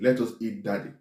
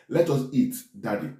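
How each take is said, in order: First: There is no pause before Daddy. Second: There is a pause before Daddy.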